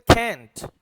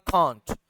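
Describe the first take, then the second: First: It is said with an American accent. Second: It is said with a British accent.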